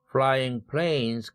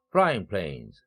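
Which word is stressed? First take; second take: planes; flying. First: The main stress falls on planes. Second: The main stress falls on flying. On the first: Planes that are in the air now can be dangerous. "첫 번째 구강세를 적용한" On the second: The act of flying planes can be dangerous. "합성어 강세를 적용해서"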